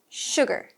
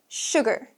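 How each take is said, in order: No difference in how they are said.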